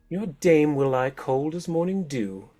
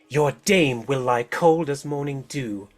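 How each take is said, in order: First: It is in the other figure's voice. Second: It is in the masked woman's hard voice.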